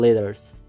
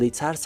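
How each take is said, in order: First: The middle consonant sounds like a soft d. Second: The middle consonant sounds like a clear t. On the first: "هر زمان حرف تی بین دو حرف سادار قرار بگیره به مثل دال تلفظ میشه" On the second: "اما letters هم تلفظ کنین مشکل نداره"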